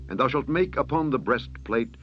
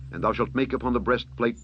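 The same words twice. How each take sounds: The two takes are said the same way.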